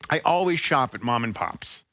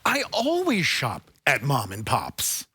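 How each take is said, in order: First: It is said in a plain, ordinary way. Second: It is said with more energy.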